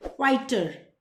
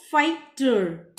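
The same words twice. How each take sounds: First: Said in the usual way. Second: फाइटर slow, as fight, then separate drawn-out ter; stretched फाइटर with टर set apart; split in two. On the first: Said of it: "पूरा एक साथ पढ़ा जाएगा". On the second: Shown as a demonstration. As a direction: sound out फाइटर in two parts. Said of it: "ये अलग से पढ़ा जाएगा".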